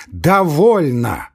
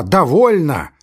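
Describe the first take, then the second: First: Very slow, louder, drawn-out cry; gasping it out while leaving; breathless repeat. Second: High, louder final cry; angry cry. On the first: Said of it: "задыхаясь и беря фуражку". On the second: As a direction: slam the door on the talk. Laevsky's final outburst. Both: Acted.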